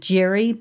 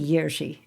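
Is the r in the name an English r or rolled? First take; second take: English; rolled. First: The name is said with a plain English r. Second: The name is said with a rolled Czech r. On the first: The speaker calls it wrong. "most of you will pronounce his name Jiri" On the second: The speaker calls it right. "but it's really Jiří. And you need to learn to roll your tongue"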